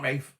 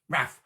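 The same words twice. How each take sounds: First: Rafe rhyming with safe; Rafe with long A. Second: Raf rhyming with gaff; Raf with short A. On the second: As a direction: say Raf with a short, open vowel. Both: Shown as a demonstration. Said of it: "not Rafe".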